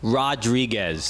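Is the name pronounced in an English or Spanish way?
English. The name is said with English sounds. The speaker calls it wrong. "I can't say Rodriguez"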